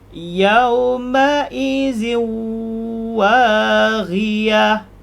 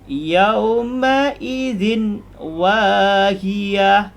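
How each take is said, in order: First: The n merges into a nasalized, held w. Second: The n is pronounced clearly before the w. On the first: "kita masuk menjadi yauma izin waghiyah. Jadi zin masuk ke waw jadi ziu. Kemudian tahan" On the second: "kalau bunyi asal dia"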